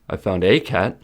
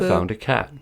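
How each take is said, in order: First: The article 'a' is stressed and fully pronounced. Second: The article 'a' is a weak, unstressed schwa. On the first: It was one cat, not necessarily the one asked about. "a is fully pronounced as a in a sentence when it is stressed" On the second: It is an ordinary, unspecified cat. "Normally it is pronounced as a schwa"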